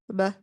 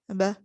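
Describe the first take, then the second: First: The b is articulated lightly with weak lips. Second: The b is articulated lightly with weak lips.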